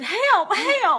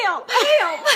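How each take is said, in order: First: High, loud cry for help; frantic plea. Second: High, loud laughing cry for help; mock panic on request. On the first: Retold or imitated. Texting her mentor, a mock panicked plea for help. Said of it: "texted my dear friend and mentor". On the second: Shown as a demonstration. Asked by her mentor to repeat, a laughing mock panic. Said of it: "Do that again".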